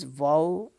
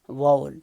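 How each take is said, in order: First: It is said carefully with full English sounds. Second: It is said quickly with reduced, merged syllables. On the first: "it is vowel" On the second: "when we pronounce it quickly, it becomes vowel"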